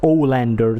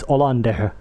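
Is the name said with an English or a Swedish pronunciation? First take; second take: English; Swedish. First: The name is pronounced the English way. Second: The name is pronounced the Swedish way. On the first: The speaker calls it wrong. "That's English pronunciation" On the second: The speaker calls it right. "That's the Swedish pronunciation"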